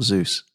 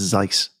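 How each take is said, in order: First: The name is said with an 'oo' vowel. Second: The name is said with an 'eye' vowel. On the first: The speaker calls it wrong. "it's not Zeus" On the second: The speaker calls it right. "That's how you pronounce it, apparently"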